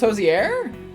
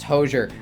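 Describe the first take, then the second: First: The middle 'i' sound is clearly pronounced. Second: The middle 'i' sound is dropped. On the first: "I'm pronouncing the I" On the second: "I think it's supposed to be pronounced Hozier"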